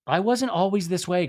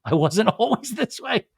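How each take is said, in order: First: Said in the usual way. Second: Higher, laughing repeat of a quote; amused, hammed-up retelling; laughing mockery. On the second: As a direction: break into a laugh while imitating.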